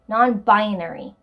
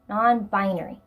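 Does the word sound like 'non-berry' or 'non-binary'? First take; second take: non-binary; non-binary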